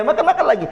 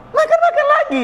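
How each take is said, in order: First: A chuckle through makan-makan lagi; laughing repeat. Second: Makan-makan jumps much higher; makan-makan lagi said with a high leap; stress on makan-makan. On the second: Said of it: "ya, makan-makan lagi". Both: Shown as a demonstration.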